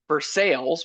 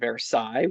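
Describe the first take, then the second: First: It is said with the local Pittsburgh pronunciation. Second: It is said with the original French pronunciation. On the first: The speaker calls it wrong. "we have Vers- uh, Versailles" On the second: The speaker calls it right. "which is actually Versailles"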